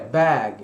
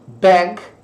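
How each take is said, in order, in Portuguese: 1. A vogal fica entre a e e. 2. A vogal se inclina para e. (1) "entre o A e o E"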